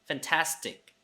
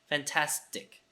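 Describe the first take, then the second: No difference in how they are said.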